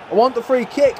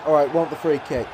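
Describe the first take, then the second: First: Frustrated demand. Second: Said in the usual way. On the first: Real, not acted. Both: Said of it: "I'm pressing the buttons for a freaking free kick".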